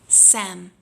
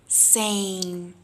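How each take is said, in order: First: The vowel is a short 'eh' sound. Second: The vowel is a full 'ay' sound. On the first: The speaker calls it wrong. "We don't want that" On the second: The speaker calls it right. "We got that A sound"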